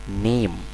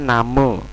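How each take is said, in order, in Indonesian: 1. Vokal pertama berbunyi 'e'. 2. Vokal pertama berbunyi 'a' biasa. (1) "tapi name. Karena ini A kan dibaca E" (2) "jangan bacanya name"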